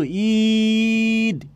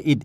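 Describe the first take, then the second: First: ঈদ stretched far out on a steady long "ee"; ঈদ with an overlong "eee" before the d; drawn-out long vowel. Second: ঈদ cut short, no lengthening of the vowel; a brief ঈদ, straight onto the d. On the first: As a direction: hold the vowel in ঈদ for a long, exaggerated beat. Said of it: "এরকম বলবো না". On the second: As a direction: say ঈদ with a short, quick "i". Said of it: "হর্ষ ই দিয়ে বললে". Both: Shown as a demonstration.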